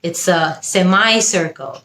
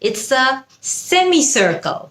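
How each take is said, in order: First: It is said in an American accent. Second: It is said in a British accent.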